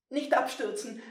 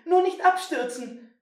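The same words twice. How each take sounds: First: Put-on tense, high boy, straining to hold; clinging on, urging himself; hanging on for dear life. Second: Louder, higher panicked plea; begging himself not to fall. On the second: Acted. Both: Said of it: "schoss es ihm durch den Kopf".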